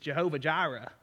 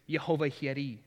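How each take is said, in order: First: It is said with a Southern American pronunciation. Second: It is said with a Hebrew pronunciation.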